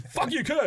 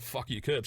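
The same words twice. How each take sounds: First: High-pitched mock aggressive yell; aggressive heckle. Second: Said in the usual way. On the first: Fans pointing at him, aggressively heckled. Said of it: "I just get aggressive points".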